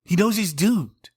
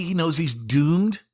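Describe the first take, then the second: First: "knows" hit high and hard, slow, higher overall; stress on knows. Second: Slow, higher, each word laid out evenly; slow and deliberate. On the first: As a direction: lean on "knows" in "He knows he's doomed". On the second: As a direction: spell out "He knows he's doomed" slowly and evenly, no single word punched. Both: Real, not acted. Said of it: "he's crazy".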